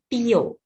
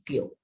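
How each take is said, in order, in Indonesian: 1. 'pi' dan 'yo' diucapkan sebagai dua suku kata. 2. 'pyo' diucapkan sebagai satu suku kata. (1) "bukan pio" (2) "karena dia satu bunyi"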